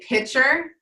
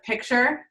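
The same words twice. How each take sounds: First: The middle T sound is dropped. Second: The middle T sound is clearly pronounced. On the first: The speaker calls it wrong. "you say picture instead of picture" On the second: The speaker calls it right. "there's a T there"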